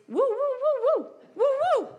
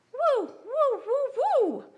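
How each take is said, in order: First: Very high, loud woo woo yelps; golden retriever noise. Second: Very high, loud woo woo sounds; golden retriever noise. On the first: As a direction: yelp like an eager dog. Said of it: "I sound like a golden retriever". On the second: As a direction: bark like a happy dog. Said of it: "he sounds like a golden retriever". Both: Retold or imitated.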